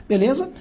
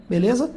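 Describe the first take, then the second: Both takes have the same delivery.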